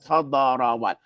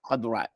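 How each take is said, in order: First: An extra vowel is inserted between d and r. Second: The d is followed directly by r, no vowel. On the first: The speaker calls it wrong. "not khadarawat" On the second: The speaker calls it right. "that dot is sakin"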